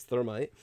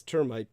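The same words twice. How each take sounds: First: "thermite" begun with a TH sound. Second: "termite" begun with a hard T sound. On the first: Correcting a listener's word to "thermite", starting on TH. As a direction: say "thermite" with soft TH, not T. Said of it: "but he means thermite". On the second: Reading out a listener's misspelling, "termite" with a hard T. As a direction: say "termite" with plain T, no TH. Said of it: "he says termite". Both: Shown as a demonstration.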